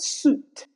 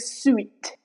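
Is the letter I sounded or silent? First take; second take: silent; sounded. First: The I is silent, with a long U. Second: The I is sounded after the U. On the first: The speaker calls it right. "the letter I goes silent" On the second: The speaker calls it wrong. "We do not say sweet. That's wrong"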